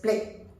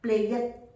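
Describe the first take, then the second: First: The ending adds no extra syllable. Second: The ending is said as an extra syllable. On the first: The speaker calls it right. "Y E D has no sound. So it's just played" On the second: The speaker calls it wrong. "It's not the correct pronunciation"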